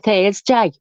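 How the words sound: The final syllable is a full 'day' sound. It is careful speech for official calls. "We'd speak properly then"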